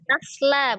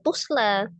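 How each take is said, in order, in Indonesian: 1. Vokal pertama adalah bunyi 'a' terbuka. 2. Vokal pertama adalah bunyi 'u' membulat. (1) "Tanya fathah, bukan dhamma" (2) "bukan tusla"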